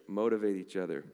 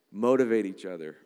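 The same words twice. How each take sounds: First: Said in the usual way. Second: Motivate each other said louder, urging; louder take. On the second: Shown as a demonstration. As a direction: urge the church on, full voice.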